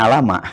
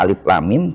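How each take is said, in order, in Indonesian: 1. Dibaca sebagai satu kata pendek yang menyatu. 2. Dibaca sebagai tiga nama huruf terpisah. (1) "malah dibacanya alama" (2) "Mestinya dibaca alif lam mim"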